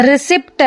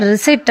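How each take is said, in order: First: ರಿಸಿಪ್ಟ್ with the P sounded before the T; P pronounced. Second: ರಿಸಿಟ್ with no P before the T; silent P. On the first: Teacher showing how some wrongly say it, ರಿಸಿಪ್ಟ್ with audible P. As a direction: close the lips for an audible P in ರಿಸಿಪ್ಟ್. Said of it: "ಪಿ ನ pronounce ಮಾಡ್ತಾರೆ ಕೆಲವರು". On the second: Teacher correcting some learners' error, ರಿಸಿಟ್ with silent P. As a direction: go straight from the vowel to T in ರಿಸಿಟ್. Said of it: "ಪಿ silent ಇದ್ದು". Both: Shown as a demonstration.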